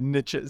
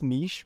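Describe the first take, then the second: First: The word is said the American way. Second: The word is said the non-American way. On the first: "So it's an American thing. ... for them, it's like, yeah, niches" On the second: "we pronounce it as niche"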